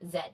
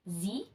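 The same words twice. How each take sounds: First: The letter is said in a Canadian accent. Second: The letter is said in an American accent. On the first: "Canadians pronounce it as Z" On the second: "Americans pronounce as Z"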